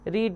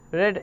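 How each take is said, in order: First: The vowel is long, like 'reed'. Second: The vowel is short, like 'red'. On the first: It is the present form. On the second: It is the past form.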